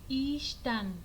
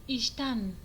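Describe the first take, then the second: The two takes are said the same way.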